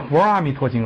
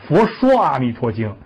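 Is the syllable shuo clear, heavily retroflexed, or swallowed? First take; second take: swallowed; retroflexed. First: The syllable shuo is swallowed and barely heard. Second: The syllable shuo has an exaggerated curled tongue. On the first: "你怎么能吞音呢？" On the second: "你这卷舌可不行"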